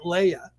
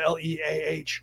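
First: The first vowel sounds like 'lay'. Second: The first vowel sounds like 'lee'. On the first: "some people pronounce that Leia, like Princess Leia" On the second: "some people pronounce it Leah because of the L-E-A-H"

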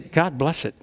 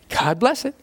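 First: It is said angrily, as an empty curse. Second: It is said sincerely, as a real blessing.

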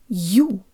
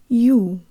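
First: The Y sound at the start is very strong. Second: The Y sound at the start is weak. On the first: The vowel is stressed. "If the U were stressed in this word, or emphasized, the Y sound would be very strong" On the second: The vowel is unstressed. "But here it's not stressed, so the Y sound is weaker"

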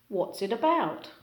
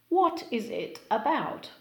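First: What is is shortened to one syllable. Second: What is is said as two full words.

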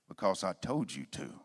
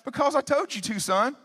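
First: It is said in a stern, hard tone. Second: It is said in a friendly, warm tone.

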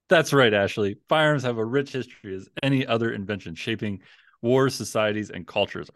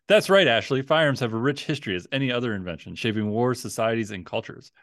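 First: It is read in a flat, unenthusiastic tone. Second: It is read in an enthusiastic tone.

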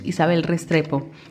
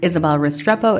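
First: The name is said with a Spanish accent. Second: The name is said with an American English accent.

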